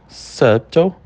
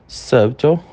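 No difference in how they are said.

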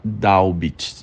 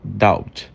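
First: The b sound is clearly pronounced. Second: The b sound is nearly silent. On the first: The speaker calls it wrong. "Você não fala doubt, você não fala dessa forma" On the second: The speaker calls it right. "você fala doubt"

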